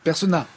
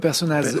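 First: The final z sound is silent. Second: The final z sound is pronounced. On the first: The speaker calls it right. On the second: The speaker calls it wrong. "pas Personnaz"

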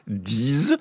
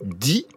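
First: The word ends in a z sound. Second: The word ends with no final consonant. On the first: The number comes before a vowel-initial noun. "si je veux dire 10 amis" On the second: The number comes before a consonant-initial word. "si je veux dire 10 000"

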